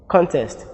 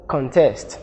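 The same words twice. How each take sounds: First: CONTEST stressed on the first syllable, CON-test; noun stress. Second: CONTEST stressed on the second syllable, con-TEST; verb stress. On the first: Teacher contrasting noun with verb, CON-test stressed on CON. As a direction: put the weight on CON in "contest". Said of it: "The noun contest". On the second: Teacher contrasting verb with noun, con-TEST stressed on TEST. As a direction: put the weight on TEST in "contest". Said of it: "the verb form". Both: Shown as a demonstration.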